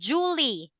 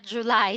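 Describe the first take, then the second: First: The word ends with a 'lee' sound. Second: The word ends with a 'lie' sound. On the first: The speaker calls it wrong. "they pronounce um Julie, not July" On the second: The speaker calls it right. "not July"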